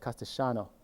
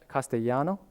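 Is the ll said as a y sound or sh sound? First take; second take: sh sound; y sound. First: The ll is said like a sh sound. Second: The ll is said like a y sound.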